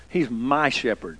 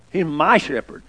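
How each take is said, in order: First: Hushed, unhurried quoting of David; soft and slow. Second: "my" leaned on in "He's my shepherd"; stress on my. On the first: Preacher quoting David to his flock, hushed and slow. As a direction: let "He's my shepherd" sink in softly and slowly, stress on "He's". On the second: Preacher correcting the idea of a corporate shepherd, stressing "my". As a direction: press on the word "my", not a corporate one. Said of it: "He's not a corporate shepherd". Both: Shown as a demonstration.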